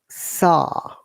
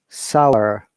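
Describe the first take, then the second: First: It is said in a British accent. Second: It is said in an American accent. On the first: "British I P A"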